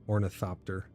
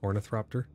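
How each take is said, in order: First: No r sound follows the th. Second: An extra r sound follows the th. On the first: The speaker calls it right. "there's no R" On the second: The speaker calls it wrong. "That's how you pronounce it?"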